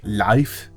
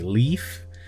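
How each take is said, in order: First: The name is said the Danish way, like life. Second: The name is said the English way, like leaf.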